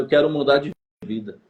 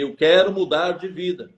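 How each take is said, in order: First: Said in the usual way. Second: Mild mock yell, a bit firmer; restrained retelling of a shouted plea; retold shout. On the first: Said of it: "Fala mais alto". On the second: Young man answering his pastor's demand to speak up, mildly raised retold shout. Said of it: "Aí eu gritei".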